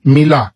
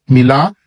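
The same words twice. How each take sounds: The two takes are said the same way.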